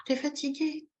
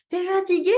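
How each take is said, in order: First: Softer, sighing concern; gentle parent-to-baby voice; acted sympathetic tiredness. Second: High, loud, over-bright question; chirpy mock example; mismatched perky question. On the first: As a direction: say it as if sharing the weariness. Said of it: "Il faut que ce soit en accord". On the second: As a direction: ask it with far too much energy. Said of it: "on fait pas". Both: Shown as a demonstration.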